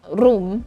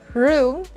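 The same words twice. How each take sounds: First: The R is said the Filipino way. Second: The R is said the English way. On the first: The speaker calls it wrong. "and not room" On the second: The speaker calls it right. "the correct sound of R when you are speaking English"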